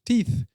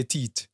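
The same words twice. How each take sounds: First: "Teeth" with a clear final th; "Teeth" said the English way, th not t; English pronunciation. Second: "teeth" said as "teet"; "teeth" the Jamaican way, with t for th; Jamaican pronunciation. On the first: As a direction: end "Teeth" on the English th sound. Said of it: "as they say in English". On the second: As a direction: end "teeth" on a hard t, no th. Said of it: "In Jamaica, we say". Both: Shown as a demonstration.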